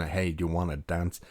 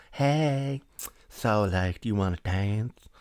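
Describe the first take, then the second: First: Said in the usual way. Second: Drawn-out come-on, opening high; ultra-feminine flirt. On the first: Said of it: "And he's proper like". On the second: Retold or imitated. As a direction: put on a hammed-up effeminate chat-up voice. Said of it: "ultra feminine".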